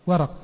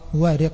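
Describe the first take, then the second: First: It has a after w and a after r. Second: It has a after w and i after r. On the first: "بفتح الواو والراء" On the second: "بفتح الواو وكسر الراء"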